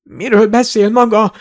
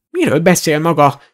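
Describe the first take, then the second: First: High-pitched, mildly winded protest; gasping. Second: Mildly spluttered indignation; spluttering. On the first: Shoved wizard regaining his wits, gasping. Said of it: "zihálta a varázsló". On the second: Old shopkeeper challenging a masked intruder, mildly spluttering. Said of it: "fröcsögte az öreg". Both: A narrator's reading.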